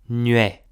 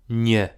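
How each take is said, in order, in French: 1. La voyelle est un son ue. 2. La voyelle est un e simple. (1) "En maritime, acò si dis ue" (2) "en rudanês, la même cause si dis e"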